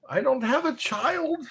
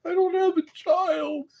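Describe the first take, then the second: First: Said in the usual way. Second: Much higher, comic falsetto take; high mock-whiny repeat; squeaky high repeat. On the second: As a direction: say it again way up high. Repeating line in silly voice.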